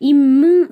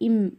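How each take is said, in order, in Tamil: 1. கடைசி m எதிரொலிக்கும் துள்ளலுடன் வெளிப்படுகிறது. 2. கடைசி m எந்தத் துள்ளலும் இல்லாமல் சுத்தமாக நின்றுவிடுகிறது.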